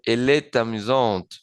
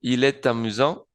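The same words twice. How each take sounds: First: "est amusante" joined as "e-tamusante", ending on a clear T; liaison, final T sounded. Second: "amusant" ending open on a nasal vowel, no T; silent final T. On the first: Teacher demonstrates the liaison, "amusante" with its final T pronounced. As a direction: link "est" to "amusante" by T and close "amusante" on T. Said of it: "en la T con la A y digo". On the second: Teacher repeats the masculine form, "amusant" without the final T. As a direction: link "est" to "amusant" and leave its last T unsaid. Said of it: "sin la pronunciación de la T". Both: Shown as a demonstration.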